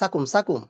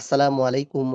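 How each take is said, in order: First: The greeting is slurred into a short clipped form. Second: Every syllable of the greeting is clearly pronounced. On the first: The speaker calls it wrong. "আমরা কি বলি?" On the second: The speaker calls it right. "আপনি বলবেন"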